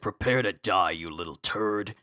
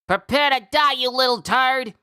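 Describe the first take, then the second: First: It is said in a lower character voice. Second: It is said in a high character voice.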